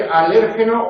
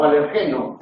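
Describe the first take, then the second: First: "alérgeno" as a-LÉR-ge-no; "alérgeno" stressed third from the end. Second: "alergeno" as aler-GE-no; "alergeno" with the beat on GE; stress on GE. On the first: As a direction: hit the second syllable of "alérgeno". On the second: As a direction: hit the next-to-last syllable of "alergeno". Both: Shown as a demonstration. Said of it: "Se puede decir alérgeno o alergeno".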